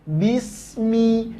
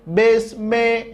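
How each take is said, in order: First: The final vowel sounds like a clear i. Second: The final vowel sounds like e. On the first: The speaker calls it right. "jelas baris bawahnya" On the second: The speaker calls it wrong.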